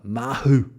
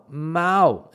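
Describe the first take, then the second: First: The middle h is sounded, said as Mahu. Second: The middle h is silent, said as Mao. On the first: The speaker calls it wrong. "my father, when he comes, pronounces it uh, uh, Mahu" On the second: The speaker calls it right. "the pronunciation of that is Mao, Mao, exactly, because the H in Spanish is uh, silent"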